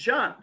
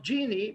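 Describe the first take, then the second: First: The name is said the French way. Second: The name is said the American way. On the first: "while in France it's Jean" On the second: "in the United States, it is pronounced Genie"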